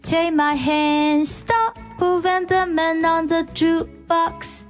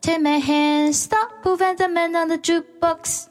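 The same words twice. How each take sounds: First: It is said slowly. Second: It is said fast.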